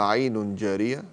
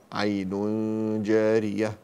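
First: Said in the usual way. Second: عين جارية with a long nasal hum before ج; drawn-out nasal join in عين جارية; hidden tanween. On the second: Shown as a demonstration. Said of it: "إخفاء".

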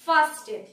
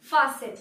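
First: "fasten" loudly as FAHS-ten; wrong, t sounded. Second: "fasten" as FAH-sen, falling; silent t. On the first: Teacher repeating the error to avoid, "fasten" as FAHS-ten. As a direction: hit the t in "fasten". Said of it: "কখনোই বলবো না". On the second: Teacher showing the silent t, "fasten" as FAH-sen. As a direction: say "fasten" with no t sound. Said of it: "টি হচ্ছে silent". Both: Shown as a demonstration.

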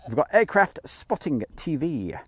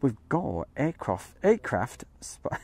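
First: Said in the usual way. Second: Slow, drawn-out posh voice; posh drawl. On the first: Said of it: "let's get to the normal voice". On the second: Shown as a demonstration. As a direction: stretch it out like a plummy announcer. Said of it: "I nearly did the posh bit then".

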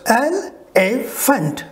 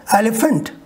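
First: Elephant very slow, three separate strokes el, e, phant; syllable by syllable. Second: Said in the usual way. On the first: Shown as a demonstration. Teacher showing the three strokes, very slow and segmented. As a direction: break Elephant into three spaced beats. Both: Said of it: "Three strokes".

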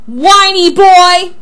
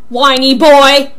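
First: Very slow, loud, high jeer; escalated yelled taunt. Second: Loud, drawn-out jeer; loud taunt. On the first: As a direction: stretch it out high and loud to outdo your rival. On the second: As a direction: throw the insult back loudly, stretching it. Taunt thrown back in quarrel. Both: Acted.

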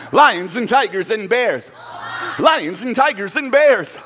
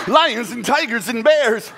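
First: Loud high laughing chant. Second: Loud high chant through laughter; laughing chant. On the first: Storyteller leads kids in the chant, loud and laughing. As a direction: chant it with the crowd. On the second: Storyteller chants with kids, laughing. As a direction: keep chanting while laughing. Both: Real, not acted. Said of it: "Don't leave me hanging".

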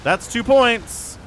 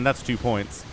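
First: Higher, slow, drawn-out call; excited emphasis. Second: Said in the usual way. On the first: Real, not acted. Caster hyping Canuck's second score, excited emphasis. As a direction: stretch out points in a raised voice.

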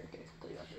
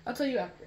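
First: Secret whisper. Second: Said in the usual way. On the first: Real, not acted. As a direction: hush it to yourself. Same words whispered after.

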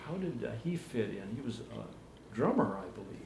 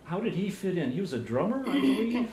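First: Soft, hesitant question trailing away; too quiet to catch. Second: Repeating to be heard. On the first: Interviewer asking about the brother, softly and hesitantly. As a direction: ask it softly, fading on the last words. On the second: Interviewer repeating for a guest who didn't hear, raised voice. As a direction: say it up and out for a listener who missed it. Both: Real, not acted. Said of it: "What's that?".

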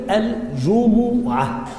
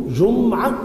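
First: الجمعة as al-ju-mu-'a, drawn out; damma on the meem. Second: جمعة as jum-'a, meem closed without a vowel; sukun on the meem. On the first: Teacher contrasting two readings, الجمعة said slowly as al-ju-mu-'a. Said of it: "والجمو بضم الميم". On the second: Teacher contrasting two readings, جمعة said jum-'a with vowelless meem. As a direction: hold the m of جمعة, then straight into 'a. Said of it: "الجمعة بالسكون". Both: Shown as a demonstration.

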